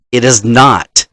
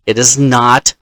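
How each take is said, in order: Both takes have the same delivery.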